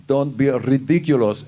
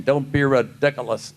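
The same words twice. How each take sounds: First: A hint of Balki saying his line; the catchphrase in character. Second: Fans' bad imitation. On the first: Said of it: "I always said". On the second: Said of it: "I can do a great imitation".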